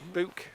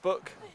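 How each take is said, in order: First: It is said with the local regional vowel. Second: It is said with the standard vowel. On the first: This is how people said it where the speaker grew up. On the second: This is how it is usually said elsewhere.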